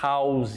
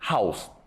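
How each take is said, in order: First: The word end is drawn out and prolonged. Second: The word end is short and clipped. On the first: The speaker calls it wrong. "Olha só como a gente prolonga o som house" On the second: The speaker calls it right. "E a pronúncia correta é house"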